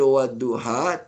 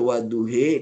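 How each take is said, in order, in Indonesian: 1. Bunyi akhir vokalnya a terbuka biasa. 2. Bunyi akhir vokalnya condong kuat ke arah i. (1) "tak baca wadduha" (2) "wadduhi tu imalah kubra"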